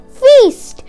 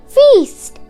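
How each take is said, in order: Both takes have the same delivery.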